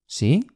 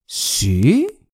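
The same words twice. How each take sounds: First: It is said softly with little emphasis. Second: It is said with strong, exaggerated emphasis. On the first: "轻的" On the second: "夸张"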